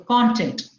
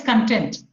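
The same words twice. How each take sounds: First: The stress is on the first syllable. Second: The stress is on the second syllable. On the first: It means the subject matter. "So content is the subject matter" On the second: It means satisfied. "We need to be content with whatever we have"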